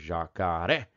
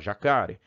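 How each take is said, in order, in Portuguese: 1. A tônica está na última sílaba. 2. A tônica está na segunda sílaba. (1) "Do A pro E" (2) "a tônica natural é jacá... Se eu não acentuar, eu tenho que falar"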